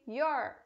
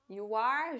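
First: The two words merge into one short syllable. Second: Two separate words are said, 'you' and 'are'.

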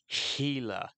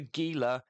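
First: The word starts with an H sound. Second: The word starts with a hard G sound. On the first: The speaker calls it right. "that G is pronounced as an H" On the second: The speaker calls it wrong. "not the Gila"

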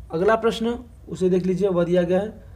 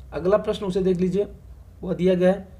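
Both takes have the same delivery.

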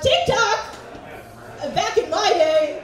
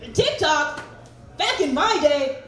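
First: It is voiced as a man in his seventies. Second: It is voiced as a person in their thirties. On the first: "an impression of a guy who's maybe in his 70s or 80s" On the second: "is in their 30s"

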